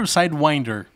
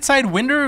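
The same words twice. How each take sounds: First: "Sidewinder" with winder rhyming with finder; long-i "winder". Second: "Sidewinder" with winder like the wind that blows; short-i "winder". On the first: Streamer asking which pronunciation is right, long i in "Sidewinder". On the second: Streamer asking which pronunciation is right, short i in "Sidewinder". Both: Shown as a demonstration. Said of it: "American English".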